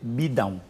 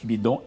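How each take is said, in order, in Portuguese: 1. Termina em um ditongo nasal 'ão'. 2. Termina em um som nasal 'on'. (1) "em português é bidão" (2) "Bidon em francês"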